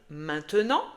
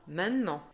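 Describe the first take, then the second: First: Every syllable is pronounced fully and clearly. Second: Some sounds are dropped in casual speech. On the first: This is how it is written. "Tu vas lire" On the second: This is how people actually say it.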